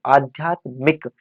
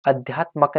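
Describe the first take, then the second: First: आध्यात्मिक slow, long aa and "mik" ending; correct form. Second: अध्यात्मक with short first a and "mak" ending; wrong form demonstrated. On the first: Teacher correcting for students, slow careful आध्यात्मिक. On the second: Teacher showing students the error, mistaken अध्यात्मक. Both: Shown as a demonstration. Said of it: "अध्यात्मक नहीं".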